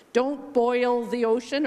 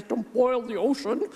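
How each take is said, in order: First: Said in the usual way. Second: Put-on a weak try at a British accent. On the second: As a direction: quote it with a bad British accent. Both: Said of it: "I'm very bad at the British accent".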